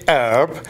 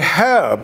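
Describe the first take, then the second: First: It is said American-style, without the H sound. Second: It is said British-style, with the H sound.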